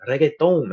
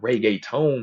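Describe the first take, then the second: First: Reggaeton as "reh-geh-tón", slow, loud, higher; corrected Spanish pronunciation. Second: Reggaeton slowly as "ray-gay-tone"; mocked English pronunciation. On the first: Retold or imitated. Friends teaching him, Spanish-style reggaeton. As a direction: say reggaeton the Puerto Rican way, emphatically. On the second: Friends correcting his mistake, English-style reggaeton. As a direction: quote the Anglo reggaeton, drawn out and loud. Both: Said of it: "They'd be like, "Not reggaeton".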